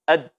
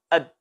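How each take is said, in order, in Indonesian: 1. Konsonan terakhir ditahan lalu terputus. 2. Konsonan terakhir ditahan lalu terputus.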